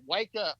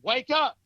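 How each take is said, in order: First: It is said mildly, without force. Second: It is said forcefully, with commanding authority. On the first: "It said wake up like that" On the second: "that third time it was with authority"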